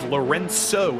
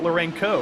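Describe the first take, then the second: First: The c in the name is soft. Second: The c in the name is hard. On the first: The speaker calls it right. "It's a soft C" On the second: The speaker calls it wrong. "It's not Lorenco"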